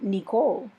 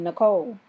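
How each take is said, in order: First: The name is said in a Virgin Islands accent. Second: The name is said in a Maryland accent.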